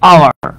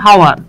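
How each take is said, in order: First: The word starts directly with a vowel sound. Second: The word starts with an audible h sound. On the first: The speaker calls it right. "এইটার উচ্চারণ হচ্ছে আওয়ার" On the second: The speaker calls it wrong. "মনে হবে এটার উচ্চারণ হচ্ছে হাওয়ার"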